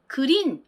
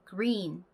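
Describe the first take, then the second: First: The initial g is a full, separate syllable. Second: The initial g is faint and barely heard. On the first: "저희는 당연히 그린 이렇게 발음을 해줄 거라고 생각을 하는데" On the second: "G 발음은 존재감 없는 미약한 발음이 납니다"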